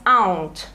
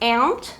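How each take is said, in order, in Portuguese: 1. A palavra é dita com sotaque britânico. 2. A palavra é dita com sotaque americano. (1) "britânicos costumam falar mais aunt, mais fechadinho" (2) "Americanos costumam falar mais aunt"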